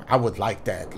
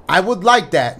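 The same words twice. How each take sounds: First: Flat mumbled line. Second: Said in the usual way. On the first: Shown as a demonstration. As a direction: read low and soft, no passion. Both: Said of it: "Show a little bit more, more passion".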